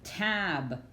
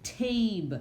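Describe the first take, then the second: First: "Tab" with a short A as in cat; short-vowel "Tab", deliberate. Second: "tabe" rhyming with babe, higher; long-vowel "tabe", pitched up. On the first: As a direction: say "Tab" as a closed syllable. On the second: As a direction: let the A in "tabe" say its name. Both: Shown as a demonstration. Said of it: "You hear the difference".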